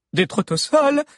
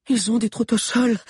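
First: High, loud echo of disbelief; incredulous. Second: High, breathless warning; panting. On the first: Valère repeating Lunella's news while running, incredulous. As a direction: repeat it as if it cannot be true. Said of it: "incrédule". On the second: Lunella warning the others as she runs, panting. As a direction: gasp it out while running. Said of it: "haletait Lunella". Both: A narrator's reading.

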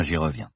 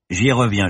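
First: The repeat "j'y reviens" dropped softer and lower; absent-minded, softer "j'y reviens"; trailing off. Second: Said in the usual way. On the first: Acted. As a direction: let the second "j'y reviens" fade into a murmur. Professor repeats himself, second fading.

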